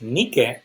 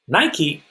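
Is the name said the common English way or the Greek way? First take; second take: Greek; common English. First: The name is said the original Greek way. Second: The name is said the familiar English way. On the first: The speaker calls it right. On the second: The speaker calls it wrong.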